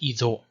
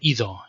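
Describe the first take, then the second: First: It is said in the Western tradition. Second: It is said in the Eastern tradition.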